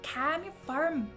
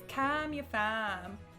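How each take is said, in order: First: It is said in an Irish accent. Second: It is said in an Australian accent. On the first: "And then Irish would be like" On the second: "So anyway, it's"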